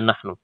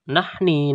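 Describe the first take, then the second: First: The word ends in a u vowel. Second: The word ends in an i vowel. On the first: The speaker calls it right. "Senantiasa dibaca nahnu" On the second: The speaker calls it wrong. "Ini tidak terbaca nahni"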